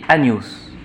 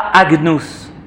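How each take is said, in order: First: The 'gn' is a single 'ny' sound. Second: The 'gn' is a hard g followed by n. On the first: The speaker calls it right. "on dit agnus" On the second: The speaker calls it wrong. "On ne dit pas agnus"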